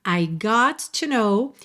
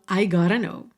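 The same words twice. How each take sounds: First: Slow, GOT TO as two separate words; uncontracted got to. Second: GOTTA run together as one word, "gah-ruh"; contracted gotta. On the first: Teacher showing learners the form before contraction, uncontracted "got to". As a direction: say "got to" in full, with a clear T. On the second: Teacher showing learners the fourth version, contracted "gotta". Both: Shown as a demonstration. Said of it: "quando a gente contrai esse got com to".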